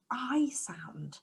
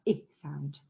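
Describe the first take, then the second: First: Long "I" as in ice; letter "I" said as its long vowel, as in iron; long I sound. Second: Short "I" as in ink; letter "I" said as its short phonics sound, ih. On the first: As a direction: say "I" like the word eye. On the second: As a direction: say "I" as a short clipped vowel, like the start of igloo. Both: Shown as a demonstration. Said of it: "some of our pictures start with our I sound".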